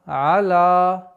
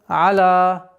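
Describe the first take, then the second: No difference in how they are said.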